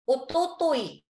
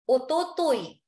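No difference in how they are said.

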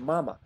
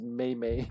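First: Each syllable has an 'ah' vowel. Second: Each syllable has an 'ay' vowel. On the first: The speaker calls it right. "You say mama" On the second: The speaker calls it wrong. "you don't pronounce it May-May"

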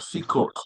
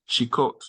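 First: The word begins with an s sound. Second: The word begins with an sh sound. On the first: The speaker calls it right. "It's a it's a scene" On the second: The speaker calls it wrong. "not a sheen"

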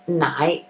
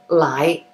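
First: The word begins with an N sound. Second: The word begins with an L sound. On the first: This is the more proper form. "nai is the more proper way to say it" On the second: This is the form usually heard. "lai is usually what you'll hear"

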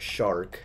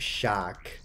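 First: It is said in an American accent. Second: It is said in an Australian accent. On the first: "The American says it shark" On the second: "And the Australian said shock"

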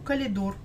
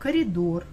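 First: The word is said with an L sound. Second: The word is said with an R sound. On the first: This is a common regional way of saying it. The speaker calls it wrong. "многие говорят калидор" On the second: This is the standard way of saying it. The speaker calls it right. "А правильно, коридор"

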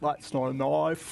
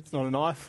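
First: An exaggerated imitation with the mouth opened wide. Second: A natural, relaxed Australian accent from a native speaker.

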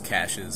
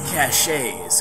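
First: It sounds like the plain word cash. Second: It has a fancier, longer ending than cash. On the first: The speaker calls it right. "I think it's caches" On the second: The speaker calls it wrong. "screw it up a lot and say caches, because it sounds all fancy"

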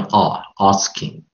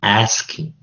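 First: The word has a British-leaning pronunciation. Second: The word has an American pronunciation. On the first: The speaker calls it wrong. "你念asking，那个R 音的话就比较偏英式" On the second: The speaker calls it right. "其实应该是念asking"

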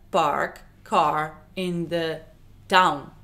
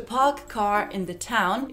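First: The p, t and k sounds lack aspiration. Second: The p, t and k sounds have aspiration.

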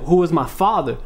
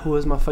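First: It is said with raised, assertive, informative tone. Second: It is said with low, unassertive, hesitant tone. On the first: The speaker is telling the listeners something. The speaker calls it right. "You gotta let them know, yo" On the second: The speaker is not informing the listeners. The speaker calls it wrong. "You're not"

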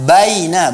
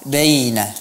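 First: The first vowel is wide open. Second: The first vowel is more closed. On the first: The speaker calls it right. "baca baina" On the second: The speaker calls it wrong. "bukan baina"

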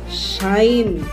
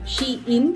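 First: The name sounds like the word 'shine'. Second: The name does not sound like 'shine'. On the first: This is the correct way to say it. The speaker calls it right. "Shine pala ang tamang pronunciation niya" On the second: This is how it was said before. The speaker calls it wrong. "yung pagkaka-pronounce ko sa kanya dati"

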